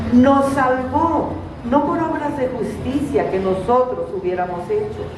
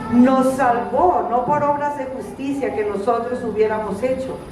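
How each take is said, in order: Both takes have the same delivery.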